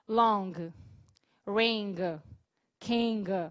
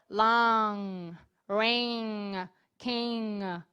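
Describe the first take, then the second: First: Each word ends with an audible hard g sound. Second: Each word ends in a nasal with no g. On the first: The speaker calls it wrong. "vou dar o exemplo primeiro errado" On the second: The speaker calls it right. "o mais certeiro seria"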